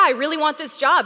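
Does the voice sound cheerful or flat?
cheerful. The voice sounds warm and smiling. The speaker calls it right. "When you actually smile while you're talking"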